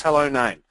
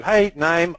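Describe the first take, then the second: First: HELLO said a bit more formally; a touch more formal, stranger greeting. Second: Said in the usual way. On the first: Shown as a demonstration. Coach to class, contrasting a formal hello with hey. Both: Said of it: "notice the difference".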